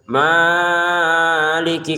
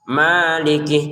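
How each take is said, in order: First: The first vowel is stretched too long. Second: The first vowel is held only briefly. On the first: The speaker calls it wrong. "jangan maliki kepanjangan" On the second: The speaker calls it right. "Maliki cukup"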